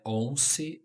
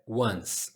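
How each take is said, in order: First: An extra vowel is sounded after the s. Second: No vowel is sounded after the s. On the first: The speaker calls it wrong. "você não lê o, o E e não é once" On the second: The speaker calls it right. "é once"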